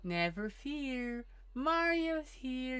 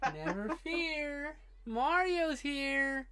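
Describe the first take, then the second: First: It is said in a low, creepy voice. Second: It is said in an ordinary speaking voice.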